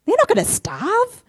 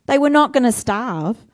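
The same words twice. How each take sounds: First: Not thrown up high in disbelief; high, incredulous They're not gonna starve; exasperated stress on not. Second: Not pressed down calmly; matter-of-fact reassurance on not; firm stress on not. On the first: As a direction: scoff at the worry with a high not. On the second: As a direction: settle it with a steady not. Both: Shown as a demonstration.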